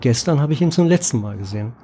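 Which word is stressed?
letzten. The stress falls on the word letzten. It answers how often the person was seen. "aber natürlich funktioniert er nur mit einer völlig anderen Betonung"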